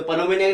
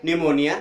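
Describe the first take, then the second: First: पनोमोनिया with "pa" before the n; sounded P. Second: निमोनिया opening straight on n; silent P. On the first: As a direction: say पनोमोनिया, p wrongly voiced. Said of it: "नहीं पढ़ेंगे". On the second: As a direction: say निमोनिया without the p. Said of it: "क्या पढ़ेंगे?". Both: Shown as a demonstration.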